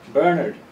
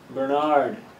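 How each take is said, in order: First: The stress is on the first syllable. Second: The stress is on the second syllable. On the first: This is how it is said in Ireland. "we stress the first syllable" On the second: This is how it is said in the States. "Stressing the second syllable"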